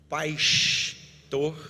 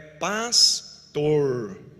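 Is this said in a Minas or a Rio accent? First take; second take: Rio; Minas. First: The S sounds almost like sh. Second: The final R is drawn out and curled. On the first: "se você vai no Rio, o S é o que se destaca... Pastor é um S quase xizado" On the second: "Nós do, de Minas, Goiás, interior de São Paulo, é pastor. O R puxa lá no final"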